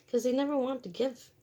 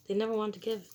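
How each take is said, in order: First: Never hit high and loud; stress on never. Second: Said in the usual way. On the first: Real, not acted. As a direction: lean hard on "never" with a rising end. Repeated line, emphasis on never.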